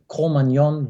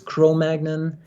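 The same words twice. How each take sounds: First: It is pronounced with French sounds. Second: It is pronounced with English sounds. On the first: The speaker calls it right. "the actual correct pronunciation of that term" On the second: The speaker calls it wrong. "butchered into the English version"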